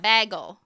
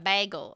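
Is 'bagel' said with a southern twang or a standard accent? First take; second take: southern twang; standard. First: The word is said with a southern twang. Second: The word is said in a standard accent. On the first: The speaker calls it wrong. "I still mispronounce some things weirdly" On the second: The speaker calls it right. "instead of"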